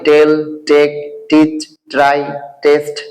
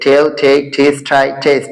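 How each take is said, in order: First: The words have Bengali-style t sounds. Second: The words have English-style t sounds. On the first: The speaker calls it wrong. "এটা যেন কখনোই ... না হয়, those are wrong pronouns" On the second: The speaker calls it right. "so it would be correct"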